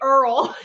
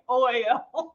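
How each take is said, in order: First: The word oil sounds like earl. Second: The word oil has its usual oy sound. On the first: The speaker calls it wrong. "She would always say Earl" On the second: The speaker calls it right. "I kept saying oil"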